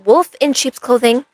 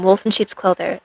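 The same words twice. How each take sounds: First: Slow, higher-pitched retake with a clear "-ing" on "Clothing"; careful correction. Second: "Clothing" slips out as "clother"; slip of the tongue. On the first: Streamer fixing her fumbled song title, careful correction. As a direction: say "Clothing" deliberately, ending in a full "-ing". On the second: Streamer naming a song she heard, slip of the tongue. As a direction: fumble the end of "Clothing" into "-er". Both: Real, not acted. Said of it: "I can't speak English".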